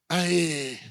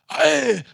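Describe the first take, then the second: First: It is said weakly with little energy. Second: It is shouted loudly with lots of energy. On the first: The speaker calls it wrong. "Mas não é aquele assim" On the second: The speaker calls it right. "É aquele aí com mais vontade"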